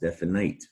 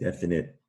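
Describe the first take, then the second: First: The last syllable rhymes with night. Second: The last syllable has a short i sound. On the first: The speaker calls it wrong. "you might think it's it's pronounced definite. It looks like night at the end" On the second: The speaker calls it right. "it's a sh- short I sound there"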